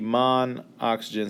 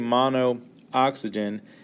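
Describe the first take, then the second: First: The two O vowels merge into one. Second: Both O vowels are pronounced separately. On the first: The speaker calls it right. "it would just be monoxygen" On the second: The speaker calls it wrong. "I wouldn't say monooxygen"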